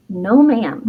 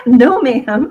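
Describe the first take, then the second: First: Said in the usual way. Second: A touch louder, firm Southern mom refusal; lightly imitating a firm mom saying no; her mom's no ma'am. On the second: Daughter imitating mom's firm refusal, a touch louder. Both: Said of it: "That's what my mom would say".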